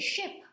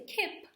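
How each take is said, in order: First: The word begins with a sh sound. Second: The word begins with a k sound. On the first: "we don't say ship" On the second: "We don't say kip"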